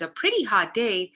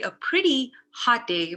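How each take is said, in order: First: Pretty and hot run together without pause. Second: There is a pause between pretty and hot. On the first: The day is very hot. "it's a pretty hot day" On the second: The day is nice and also hot. "It's a pretty and it's a hot day"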